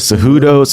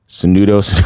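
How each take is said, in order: First: The middle consonant of the name is an 'h'. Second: The middle consonant of the name is an 'n'. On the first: The speaker calls it right. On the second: The speaker calls it wrong.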